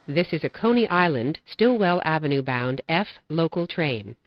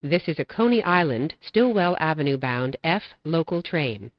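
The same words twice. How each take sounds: The two takes are said the same way.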